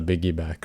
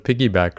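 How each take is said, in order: First: The word begins with a B sound. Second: The word begins with a P sound. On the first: "it's a biggyback ride" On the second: "It's not a piggyback ride"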